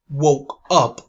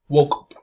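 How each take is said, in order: First: The two words are said separately. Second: The two words are linked together. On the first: The speaker calls it wrong. "We do not say woke up" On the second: The speaker calls it right. "we say woke up"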